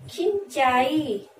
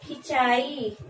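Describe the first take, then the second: First: खिंचाई said very slowly with the nasal ं held through the nose; slow teaching demo of खिंचाई; drawn-out nasal demo. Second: Said in the usual way. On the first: Shown as a demonstration. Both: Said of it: "इसका जब प्रयोग करेंगे जैसे".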